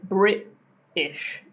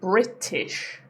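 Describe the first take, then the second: First: The T is cut off in the throat. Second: The T is fully pronounced in the middle. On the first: "I would say Brit-ish. It's like I cut that sound" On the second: "instead of saying British"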